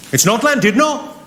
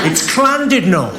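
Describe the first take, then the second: First: "Llandudno" said the visitor's way, with a plain L; mock the plain-L "Llandudno"; rejected pronunciation. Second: "Llandudno" drawn out, starting with a C sound; Welsh double L. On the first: Welsh local correcting the comic, "Llandudno" with a plain L. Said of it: "This guy, front and centre". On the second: Acted. Welsh local correcting the comic, slow "Llandudno" with C sound. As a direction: slowly correct "Llandudno" to begin like "Clan". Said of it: "the double L is pronounced with a C".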